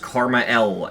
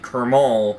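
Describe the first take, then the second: First: It sounds like 'karma' followed by the letter L. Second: It sounds like one word, 'ker-mal'. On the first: The speaker calls it right. "it's supposed to be pronounced Karma L" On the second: The speaker calls it wrong. "I have been pronouncing it Kermal my whole life"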